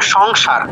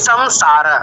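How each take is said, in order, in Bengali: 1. প্রথম সিলেবলটি ng ধ্বনি দিয়ে শেষ হয়। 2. প্রথম সিলেবলটি m ধ্বনি দিয়ে শেষ হয়। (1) "বাংলায় কি কিরকম করলাম? সং, অং এরকম করে উচ্চারিত হয়েছে" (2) "সংস্কৃতে কি হবে? ... মা সম সম"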